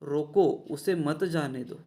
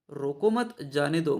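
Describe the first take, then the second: First: रोको on its own, then उसे मत जाने दो as one phrase; pause after रोको. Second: रोको मत as one unit, then जाने दो; pause after मत. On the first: Teacher explaining the first sentence to students, pause after रोको. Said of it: "पहले वाक्य का अर्थ होता है". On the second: Teacher explaining the second sentence to students, pause after मत. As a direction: join मत to रोको and break before जाने दो. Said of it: "और दूसरे वाक्यों का अर्थ होता है". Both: Shown as a demonstration.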